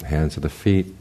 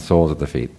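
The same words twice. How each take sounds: First: Spoonerism. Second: Said in the usual way. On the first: Real, not acted. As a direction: slip of the tongue, words swapped. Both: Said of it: "I suffer from spoonerisms".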